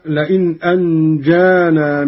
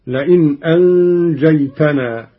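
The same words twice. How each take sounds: First: Said in the usual way. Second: أنجيتنا with a ta, "anjaytana"; second-person ta. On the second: Shown as a demonstration. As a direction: say أنجيتنا in the addressed form, with ta. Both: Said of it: "بالتاء على الخطاب".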